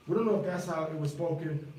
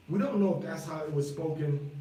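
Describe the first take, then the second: No difference in how they are said.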